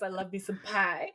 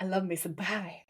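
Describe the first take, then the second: First: Cutesy voice. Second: Soft, cute, lower and quieter; cutesy voice. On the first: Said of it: "he goes". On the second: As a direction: coo it like something adorable. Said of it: "in a weird, cutesy way". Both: Retold or imitated.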